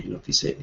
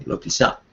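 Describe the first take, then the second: First: "tisé" ending in a clear e, said softly as the wrong form; muttered wrong take, "tisé" with an e; soft, unvoiced "lo tisé" as the mistake; wrong vowel. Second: "tisá" ending in an open a, said softly as the correction; murmured fix, "tisá" with an a; soft, unvoiced "lo tisá" as the right form; right vowel. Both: Shown as a demonstration. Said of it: "Sí".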